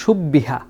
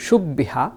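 First: Whispered. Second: Said in the usual way. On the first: Shown as a demonstration. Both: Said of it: "শেষ শব্দটা দেখুন তো".

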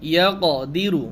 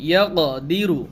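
No difference in how they are said.

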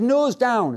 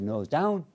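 First: High-pitched mock instructor order, falling; instructor's command. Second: Pupil's echo. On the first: Instructor orders pupil to descend, retold command. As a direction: call it out as an imitated instructor. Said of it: "He said". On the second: Retold or imitated. Pupil repeats instructor's order back, retold subdued echo. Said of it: "I said".

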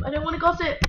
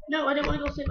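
First: Mock shout. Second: Said in the usual way. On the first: Refusing louder.

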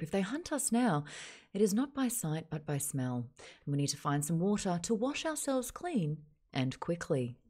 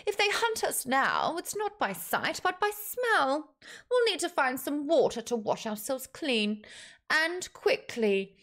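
First: Measured Australian news read, dropping at the ends; newsreader. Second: High-pitched, deliberate orc leader. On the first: Shown as a demonstration. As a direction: report it like a TV newsreader. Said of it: "That's a newsreader voice in Australia". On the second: Acted. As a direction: instruct the group, pitched up and measured. Orc leader's dialogue in story.

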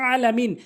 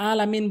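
First: আলামিন opened with a mid-throat squeeze; আলামিন higher, its first sound drawn from the throat; correct pronunciation. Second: আলামিন with a plain open vowel; wrong pronunciation. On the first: Teacher correcting a prayer mistake, correct throaty আলামিন. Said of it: "সঠিক উচ্চারণ হচ্ছে". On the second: Teacher quoting a common prayer mistake, wrong আলামিন. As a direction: say আলামিন without the throat sound. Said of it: "ভুল উচ্চারণ". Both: Shown as a demonstration.

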